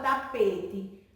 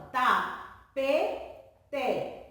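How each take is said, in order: First: Said in the usual way. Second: "tapete" very slowly as ta, pe, te; syllable by syllable. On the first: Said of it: "vai ser separada". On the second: Shown as a demonstration. Teacher showing you hear it in speech, "tapete" spaced as ta-pe-te. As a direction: put a clear gap between the syllables of "tapete". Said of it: "até quando mesmo eu estou falando".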